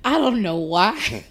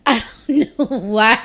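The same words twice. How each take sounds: First: Said in the usual way. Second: Said through real laughter; laughing. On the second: Real, not acted. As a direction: laugh while you repeat it.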